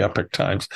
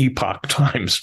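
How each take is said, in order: First: "Epoch" said EH-pick, with a short E and "pick"; "Epoch" as EH-pick, rhymes with "epic"; usual pronunciation. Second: "Epoch" said EE-pock, with a long E and "pock"; "Epoch" as EE-pock, rhymes with "see-pock"; own pronunciation. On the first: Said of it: "I call it the Epoch Times". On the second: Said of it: "everyone else calls it the Epoch Times". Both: Shown as a demonstration.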